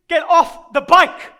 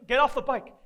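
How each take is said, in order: First: Loud, slow, forceful order; raised voice, drawn-out command; stern command. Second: Said in the usual way. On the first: Acted. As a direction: order the kid off, loudly, word by word. Orders kid off the bike.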